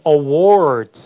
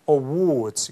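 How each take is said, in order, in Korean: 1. 모음이 열려 있고 R 소리가 납니다. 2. 모음이 둥글고 R 소리가 없습니다. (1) "이 awards 하는 게 아니라 뒤에 R 사운드로 이렇게 혀를 안으로 당기면서 er 하는" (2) "컬러링도 없기 때문에 awards 이렇게 하면 되죠"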